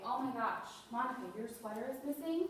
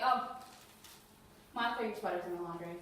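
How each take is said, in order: First: Mildly shocked, rising at the end; a touch of feigned alarm; acted concern. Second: An offhand "oh", then dropping low; casual, unconcerned reassurance; dismissive. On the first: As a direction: take the loss seriously, as if about to act. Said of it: "look like you're gonna do something about it". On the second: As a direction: brush off the worry with a low, matter-of-fact answer. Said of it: "You can't just say". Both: Shown as a demonstration.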